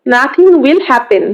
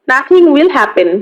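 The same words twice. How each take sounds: First: "Nothing will happen" said slowly, word by word; slow, careful repeat for the class; slow model reading. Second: Said in the usual way. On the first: Shown as a demonstration. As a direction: spell it out slowly for the learner. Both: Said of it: "teacher repeats phrase twice".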